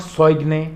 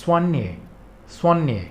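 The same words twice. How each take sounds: First: Soigne said as soyg-nay; wrong pronunciation demo. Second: Soigne said swaan-yay, g silent; soigne, French way: swaan-yay; correct pronunciation. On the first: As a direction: show the mistake, soigne with a hard g. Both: Shown as a demonstration. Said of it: "it's not soigne".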